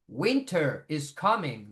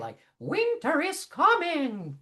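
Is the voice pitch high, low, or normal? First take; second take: normal; high. First: It is said at a normal speaking pitch. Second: It is said in a high, cartoonish voice. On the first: "That's my normal, typical pitch" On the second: "kind of like Mickey Mousey voice"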